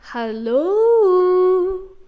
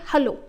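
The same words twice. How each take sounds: First: It is drawn out with dramatic pitch swings. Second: It is said plainly, like ordinary speech.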